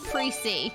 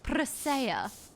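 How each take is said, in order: First: The name ends with a 'see' sound. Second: The name ends with an 'ya' sound. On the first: The speaker calls it wrong. "not Pre-C" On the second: The speaker calls it right. "So Jeeth taught me Pressia"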